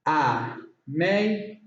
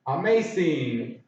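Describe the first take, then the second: First: AMAZING slowly, syllable by syllable with gaps; broken into syllables. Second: Said in the usual way. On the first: Shown as a demonstration. Teacher counting three syllables, AMAZING broken apart. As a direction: split AMAZING into three separate beats. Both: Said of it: "Three syllables".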